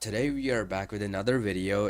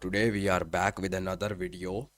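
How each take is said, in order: First: It is spoken in the speaker's own accent. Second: It is spoken in a put-on Indian accent. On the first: "Screw that" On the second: "I'm gonna do my intro in an Indian accent today"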